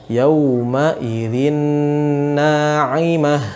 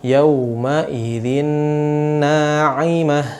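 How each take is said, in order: The two takes are said the same way.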